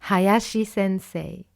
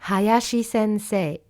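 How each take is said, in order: The two takes are said the same way.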